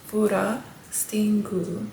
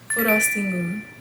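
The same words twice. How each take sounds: First: The word is said slowly. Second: The word is said quickly.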